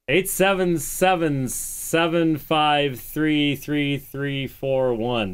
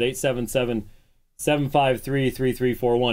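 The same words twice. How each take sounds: First: The number is said slowly and deliberately. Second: The number is said at normal, quick speed.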